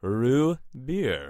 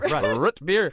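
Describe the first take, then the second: First: The T at the end of root is dropped. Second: The T at the end of root is clearly pronounced. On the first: "if I really wanted to sound elegant, I would say rue beer" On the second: "your very Midwestern pronunciation of root beer"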